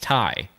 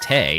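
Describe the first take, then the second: First: The vowel sounds like the word 'tie'. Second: The vowel sounds like the word 'day'. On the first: The speaker calls it right. "it's Tai" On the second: The speaker calls it wrong. "so it's not Tay"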